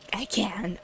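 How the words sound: It is read in a put-on, evil voice.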